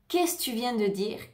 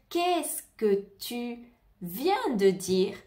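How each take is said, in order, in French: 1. Elle est prononcée vite, avec les sons enchaînés. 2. Chaque syllabe est prononcée avec soin et en entier. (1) "Mais dans la vie de tous les jours" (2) "si tu veux bien prononcer"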